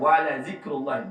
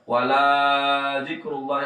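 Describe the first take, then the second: First: The vowel in 'la' is kept short. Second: The vowel in 'la' is held long. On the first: It affirms: remembering God is truly great. The speaker calls it right. "la la-nya itu jangan dipanjang" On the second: It negates: remembering God is not a great deed. The speaker calls it wrong. "Kalau la panjang itu artinya beda lagi. Makanya kalau baca wala zikrullah yang itu salah"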